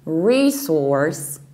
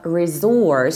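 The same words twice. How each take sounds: First: The stress is on the first syllable. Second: The stress is on the second syllable. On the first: "stressing the first syllable" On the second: "stressing the second syllable with Z"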